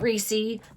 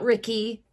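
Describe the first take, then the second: First: The vowel is followed by an s sound. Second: The vowel is followed by a k sound. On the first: "Not Reese" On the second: "not Ricky"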